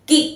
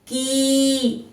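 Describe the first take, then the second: First: The vowel is short and clipped. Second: The vowel is long and drawn out. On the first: "जब वो छोटी ई का उच्चारण करेगा" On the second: "जब वो बड़ी की मात्रा का उच्चारण करेगा"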